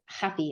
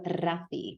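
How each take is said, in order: First: The R is dragged, sounding like an h. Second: The R is a standard tongue trill. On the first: "It's Happy" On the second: "I've never once heard him be called Rafi"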